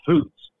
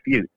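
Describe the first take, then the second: First: The vowel is a long oo sound. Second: The vowel is a short uh sound. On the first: This is the nickname used after crossing the border. "dropped the U and turned it into OO, so I became Fuchs" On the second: This is the original nickname. "instead of Fuchs"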